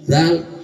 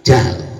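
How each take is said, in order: First: The word begins with a 'z'-like sound. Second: The word begins with a 'j' sound. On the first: The speaker calls it right. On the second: The speaker calls it wrong.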